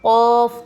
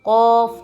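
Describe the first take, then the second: The two takes are said the same way.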